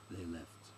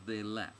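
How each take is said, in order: First: Low, soft character line; low quiet reply. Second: THEY LEFT said more firmly and distinctly; clearer repeat. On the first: Guide answering the stranger's question, low and quiet. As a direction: say it low and subdued. First take, then asked to repeat. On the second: Guide repeating for the stranger, THEY LEFT clearer and louder. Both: Acted.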